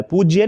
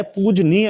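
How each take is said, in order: First: पूज्य said "pooj-ye", with no n; wrong short form. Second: पूजनीय slowly as "pooj-nee-ya"; correct full form. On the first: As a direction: say पूज्य with j running into y. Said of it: "नहीं होता है". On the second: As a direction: spell out पूजनीय, j straight into n. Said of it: "पूजनीय होता है". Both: Shown as a demonstration.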